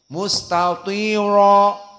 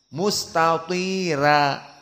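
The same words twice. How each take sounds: First: The r sound is heavy and full. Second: The r sound is light and thin. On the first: This is the majority reading. "Adapun jumhur dengan mudah ra-nya mufakhamah" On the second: This is the Warsh reading. "dengan ra-nya muraqqaqah saja. Maka dibaca mustatira"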